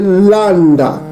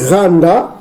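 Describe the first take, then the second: First: The word begins with an L sound. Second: The word begins with an R sound. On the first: This is the older original reading. "vous remplacez le R par le L" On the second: This is the later traditional reading. "la prononciation mazorette"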